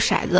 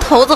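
First: The first syllable is not pronounced 'tou'. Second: The first syllable is pronounced 'tou'. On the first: "你读错了，应该念头" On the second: "那我读头子"

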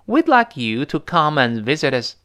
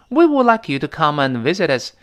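First: Would is reduced to a d sound after we. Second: Would is said as a full separate word.

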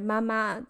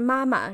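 First: The second syllable is high and level, Xinjiang accent. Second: The second syllable is short and light, standard Mandarin.

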